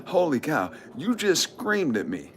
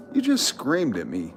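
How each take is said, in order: First: High, drawn-out incredulous voice; mock disbelief. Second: Said in the usual way. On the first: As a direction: act out being stunned by a scream. Acts out his stunned reply.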